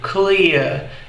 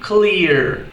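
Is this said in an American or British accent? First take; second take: British; American. First: It is said with a British accent. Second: It is said with an American accent. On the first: "no inglês britânico" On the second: "Já no inglês americano fica"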